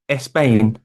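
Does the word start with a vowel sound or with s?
vowel sound. An extra eh vowel is added before the s. "Spanish speakers would say"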